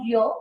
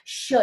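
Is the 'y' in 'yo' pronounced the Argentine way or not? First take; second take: non-Argentine; Argentine. First: The y is pronounced the non-Argentine way. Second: The y is pronounced the Argentine way. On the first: This is how the speaker's own community says it. "Nosotros decimos yo" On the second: This is how people in Argentina say it. "ellos tienen el famoso yeísmo"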